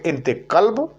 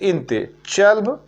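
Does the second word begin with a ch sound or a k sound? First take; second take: k sound; ch sound. First: The second word begins with a k sound. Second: The second word begins with a ch sound. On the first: This is the Saudi way of saying it. "Saudi वगैरह से बिलोंग करते हैं तो वहां पर चल्ब ना बोलिएगा, वहां पर बोलिए इंते कल्ब" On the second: This is the Kuwaiti way of saying it. "Kuwait वगैरह में है तो इंते चल्ब"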